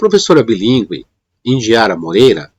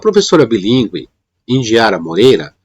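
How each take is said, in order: First: There is a pause after 'bilíngue'. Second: There is a pause after 'bilíngue'.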